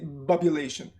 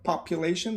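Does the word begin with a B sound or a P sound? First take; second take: B sound; P sound. First: The word begins with a B sound. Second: The word begins with a P sound. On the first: The speaker calls it wrong. "they will say bubulation" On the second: The speaker calls it right. "Instead of population"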